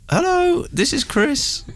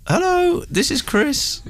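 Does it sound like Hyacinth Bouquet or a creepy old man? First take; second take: Hyacinth Bouquet; Hyacinth Bouquet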